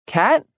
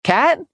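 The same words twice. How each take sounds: First: High, questioning call to another room. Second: Higher, more urgent call; calling out again. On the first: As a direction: call her name anxiously. Cassandra calling through apartment. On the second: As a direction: call once more, worried. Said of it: "she tried again". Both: Acted.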